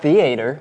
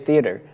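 First: It is pronounced the southern way. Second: It is pronounced the northern way. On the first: "Not theater. ... is that a southern thing?" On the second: "I say theater"

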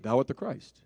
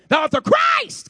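First: The Christ part is said plainly. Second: The Christ part is loud and raised up.

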